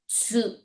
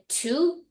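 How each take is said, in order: First: It begins with a ts sound. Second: It begins with a plain t sound. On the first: The speaker calls it right. "but it's really T S U" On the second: The speaker calls it wrong. "You may want to say Tu"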